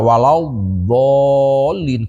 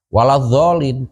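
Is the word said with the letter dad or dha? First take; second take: dad; dha. First: The consonant is pronounced as the letter dad. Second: The consonant is pronounced as the letter dha. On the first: The speaker calls it right. "kuduna dibaca ku dhad" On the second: The speaker calls it wrong. "kari-kari ku baca dha"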